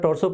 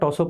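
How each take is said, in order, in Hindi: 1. शब्द में 'r' की आवाज़ बोली जाती है। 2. शब्द में 'r' की आवाज़ साइलेंट रहती है। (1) "अमेरिकन इंग्लिश में उसको प्रोनाउंस करा जाता है" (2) "सामान्यतः आर साइलेंट रहता है ब्रिटिश इंग्लिश में"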